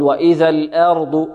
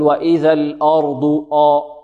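First: "وإذا الأرض" بفتحة همزة مرققة متوسطة دون إمالة; النطق الصحيح بلا إمالة; فتحة متوسطة. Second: "وإذا الأرض آ" بإمالة الفتحة ونغمة ترتيل; نطق ممنوع: فتحة الهمزة ممالة; إمالة خاطئة. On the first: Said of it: "أو نقول". (نطق صحيح للأرض) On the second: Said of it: "لا نقول". (مثال خاطئ بالإمالة) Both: Shown as a demonstration.

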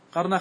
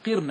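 First: قرن said "qarna"; misprinted fatha form. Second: قرن said "qirna"; corrected kasra form. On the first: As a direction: say قرن with a after the q. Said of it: "قرن خطأ". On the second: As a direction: say قرن with i after the q. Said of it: "هي بكسر القاف". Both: Shown as a demonstration.

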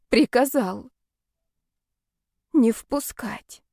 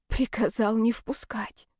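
First: Slow, dazed repetition. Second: Slow breathless whisper; stunned whisper. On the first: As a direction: let each word sink in. Repeating in disbelief. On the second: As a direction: whisper the words in shock. Stunned repeating the words. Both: Acted.

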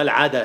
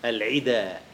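First: العدا said as al-ʕada with open a; العدا with an open a after the ain, the mistaken reading; wrong vowel. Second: العدا said as al-ʕida with a kasra on the ain; العدا pronounced al-ʕida, short i after ain; العدا corrected to al-ʕida; corrected vowel. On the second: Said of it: "لا العدا ولا العدا". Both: Shown as a demonstration.

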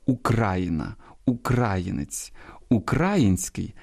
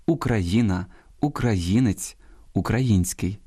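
First: Україна, українець, український stressed on -кра-; outdated stress. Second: Україна, українець, український stressed on -ї-; stress on third syllable. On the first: Host shows the dialectal, outdated form, stress on -кра- in Україна, українець, український. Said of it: "От наголос Україна". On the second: Host gives the modern norm, stress on -ї- in Україна, українець, український. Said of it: "наголос на третьому складі". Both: Shown as a demonstration.

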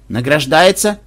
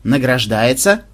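First: Startled, rising question; a jolt of mock surprise; surprised. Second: Награждается pressed out firmly; Награждается said slowly and weightily, each syllable pressed; with emphasis. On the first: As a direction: caught off guard by yet another medal. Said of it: "удивлённо встрепенулся". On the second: Acted. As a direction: lean hard on Награждается. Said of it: "с нажимом произнёс".

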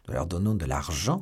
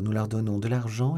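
First: "de l'argent" rising sharply into a question; questioning echo. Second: Said in the usual way. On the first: A narrator's reading. Athos queries the plan to pay, questioning echo on "l'argent". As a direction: echo it back, lifting "l'argent" at the end. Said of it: "reprit Athos".

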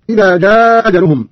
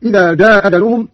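First: Prolonged "jaaaa" in جاء, first hamza dropped; madd, long vowel. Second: جاء أجلهم with one hamza and a shorter aa; first hamza dropped in جاء, brief lengthening; qasr, short vowel. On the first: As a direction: stretch the aa of جاء before the single hamza. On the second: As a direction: keep the aa of جاء short, "jaa ajaluhum". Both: Shown as a demonstration. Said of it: "وله القصر والمد هكذا".

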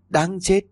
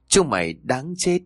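First: The ghost's rage peaking on "đáng chết"; furious shriek. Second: Angry shout. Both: A narrator's reading. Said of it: "Cô hét lên giận dữ".

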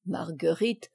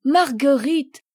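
First: Said in the usual way. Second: High, loud joyful call of her name. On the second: Acted. Father spotting his little daughter, joyful loud call.

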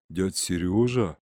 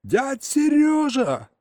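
First: Low, slow, stunned recognition. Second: Very high, drawn-out astonished yell. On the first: Boy recognizing uncle he thought lost, stunned. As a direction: say the name slowly, low, in disbelief. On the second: Boy yelling to newly found uncle, astonished. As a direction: scream the name high, stretching it out. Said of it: "заорал я, выпучив глаза". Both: A narrator's reading.

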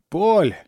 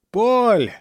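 First: High calling shout. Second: Higher, louder desperate shout. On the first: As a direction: shout the name across the river. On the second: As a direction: yell the name with all strength. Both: A narrator's reading. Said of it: "Снова принялся кричать Жан".

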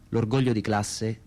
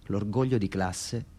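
No difference in how they are said.

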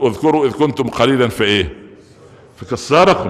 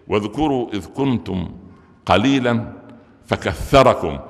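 First: فكثركم said as fikesarakum, ث turned to س; wrong tha as s. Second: فكثركم with a clear tongue-out ث, slow recital; correct tha. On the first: Preacher mocks the wrong ث in فكثركم that changes its meaning. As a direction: swap the th in فكثركم for a plain s. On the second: Preacher shows the congregation the right ث in فكثركم. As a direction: recite فكثركم with the th sound, tongue between teeth. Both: Shown as a demonstration. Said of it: "أنت لو ما طلعتش لسانك في الثاء".

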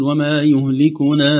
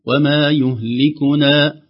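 First: وما يهلكنا with the final vowel stretched long; drawn-out يهلكنا as if before a hamza; wrong madd lengthening. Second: وما يهلكنا with only a normal short vowel length at the end; plain two-count ending on يهلكنا; natural madd. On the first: Teacher demonstrating the wrong lengthened stop on يهلكنا. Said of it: "لا نقول". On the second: Teacher demonstrating the correct short stop on يهلكنا. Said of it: "يكون مدا طبيعيا". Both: Shown as a demonstration.

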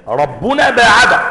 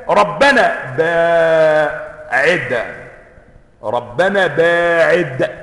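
First: "ربنا" بضم الباء و"باعد" فعل ماض ببطء; اقرأ "ربنا باعد" خبرا مع نبر على "باعد"; قراءة الخبر. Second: "ربنا باعد" ممدودة كدعاء طلب; ادعُ بهدوء وبطء شديد; دعاء بطيء. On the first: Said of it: "الخبر جملة فعلية". (ربنا باعد على الإخبار ببطء) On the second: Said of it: "بيطلبوا من ربنا". (قراءة الطلب "ربنا باعد" ببطء متضرع) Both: Shown as a demonstration.

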